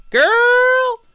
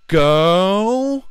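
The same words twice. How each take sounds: First: Put-on very high, loud American Girl. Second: Put-on high, loud stretched Girl; drawn-out girl. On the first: Shown as a demonstration. Showing how Americans say it, very high and loud. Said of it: "when Americans say it, it's like". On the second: Imitating a coworker gushing over dudes, high and stretched. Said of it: "kept going".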